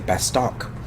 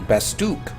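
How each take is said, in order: First: The second syllable has a short o vowel. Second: The second syllable has a long oo vowel. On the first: This is how it looks when written. "I always used to say Bastock" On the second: This is how the narrator says it. "the narrator um, will say Bastook"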